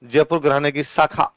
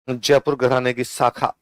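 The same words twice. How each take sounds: First: Said in the usual way. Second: Jaipur घराने की शाखा said slowly, word by word; calm, measured dictation pace. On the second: Shown as a demonstration. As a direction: dictate it slowly so students can write. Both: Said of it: "लिखो पटियाला के नीचे".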